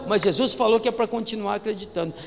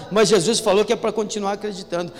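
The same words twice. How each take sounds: The two takes are said the same way.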